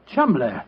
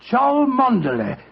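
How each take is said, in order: First: The name is said as two short syllables. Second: The name is said as four syllables, letter by letter. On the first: This is how the name is really pronounced. "the name Chumley is in no way pronounced the way it is spelt" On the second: This is how the name would sound read from its spelling. "Chow, Mon, Der, L E Y"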